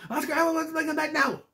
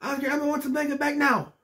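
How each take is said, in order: First: High squeaky Elmo, faster and more frantic; Elmo freaking out. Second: High squeaky Elmo, pleading loudly; Elmo yelling. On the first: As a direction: rush it out in a panicked Elmo voice. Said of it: "He's freaking out". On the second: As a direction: demand it back in a high Elmo voice. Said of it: "He's yelling into the thing". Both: Retold or imitated.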